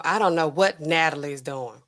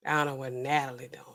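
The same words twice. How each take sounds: First: Said in the usual way. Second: Muttered aside. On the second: Retold or imitated. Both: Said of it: "They're like".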